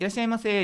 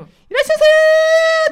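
First: It has the ordinary, standard intonation. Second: It has an odd, unusual intonation.

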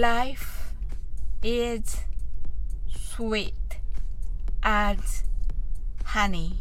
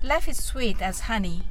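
First: The phrase is spoken at a slow pace. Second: The phrase is spoken at a fast pace. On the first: "ゆっくりと言ってみましょう" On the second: "早く言ってみましょう"

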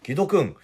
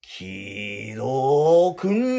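First: The name is said short and plain. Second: The name is stretched out angrily.

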